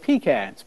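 It uses the northern Yankee pronunciation. This is how it is said where the speaker grew up. "Growing up, we ate pecans"

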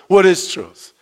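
It is said with a mocking sneer.

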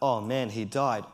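It is said in a sad, grieving tone. His death is a loss to grieve.

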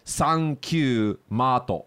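It is said with a Japanese katakana pronunciation.

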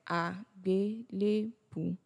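The word is split into four separate syllables.

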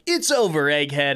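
It is said in an upbeat, animated voice.

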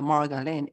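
Margarine is said with a Japanese katakana pronunciation. The speaker calls it wrong. "we pronounced it margarine"

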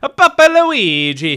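It is said in a put-on character voice.

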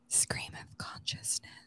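It is said in a soft whispery ASMR voice.

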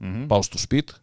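The final vowel is dropped from the end. This is how it is said in the Samian dialect.

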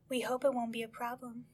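It is purred in a seductive voice.

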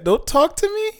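The voice rises at the end, like a question.

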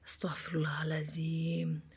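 It is said calmly with a deep breath.

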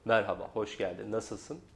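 The voice is pitched low and deep. "Bu kalın do"

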